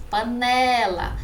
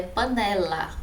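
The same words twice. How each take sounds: First: "Panela" slow, with NE stretched out; stressed penultimate syllable. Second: Said in the usual way. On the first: Shown as a demonstration. Teacher showing the tonic syllable, long stressed NE in "Panela". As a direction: draw out the middle NE of "Panela". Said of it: "Sílaba tônica". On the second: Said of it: "Sílaba tônica, a penúltima".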